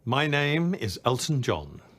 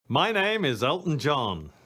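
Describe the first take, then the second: First: It is said in a plainer, toned-down way. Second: It is said in a showier, more theatrical way.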